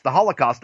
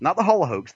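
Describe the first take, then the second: First: Said in the usual way. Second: "Holocaust" ending in "hoax"; altered last syllable. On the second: Real, not acted. Contrasts altered word with real one.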